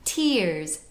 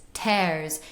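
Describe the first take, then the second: First: TEARS with a closed ee; modern closed vowel. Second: TEARS as an open, grounded 'tairs'; open old vowel. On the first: Teacher contrasting for viewers, modern closed-ee TEARS. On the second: Teacher letting viewers feel resonance shift, open-eh TEARS. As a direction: open the mouth on TEARS, eh not ee. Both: Shown as a demonstration. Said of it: "It's more open".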